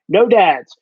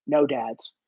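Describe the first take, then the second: First: Punchier repeat of no dads; firm louder repeat; no dads said firmer and louder; louder take. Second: Low quiet take. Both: Retold or imitated. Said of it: "always just go".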